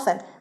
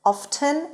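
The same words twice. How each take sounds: First: The t sound in the middle is silent. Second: The t sound in the middle is pronounced. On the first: "یا often" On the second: "ممکنه بشنوید تی تلفظ بشه"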